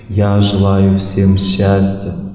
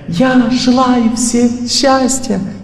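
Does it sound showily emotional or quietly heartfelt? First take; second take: quietly heartfelt; showily emotional. First: It sounds quietly warm and heartfelt. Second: It sounds showily, superficially emotional.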